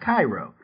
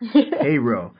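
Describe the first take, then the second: First: The first syllable sounds like 'kai'. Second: The first syllable sounds like 'kay'. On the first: This is the Egyptian city's pronunciation. The speaker calls it wrong. "not Cairo" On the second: This is the Illinois town's pronunciation. The speaker calls it right. "Cairo, Illinois"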